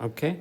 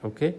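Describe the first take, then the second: Both takes have the same delivery.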